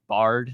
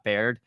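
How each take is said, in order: First: The name rhymes with 'card'. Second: The name rhymes with 'laid'. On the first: The speaker calls it right. "It's Bard" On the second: The speaker calls it wrong. "we were saying it wrong"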